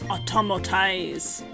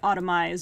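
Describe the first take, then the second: First: Every syllable of the word is said in full. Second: A syllable is dropped from the middle of the word. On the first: The speaker calls it right. "But no, it's automotize" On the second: The speaker calls it wrong. "I used to not read it properly and I would just say automize"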